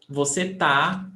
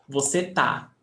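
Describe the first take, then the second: Both takes have the same delivery.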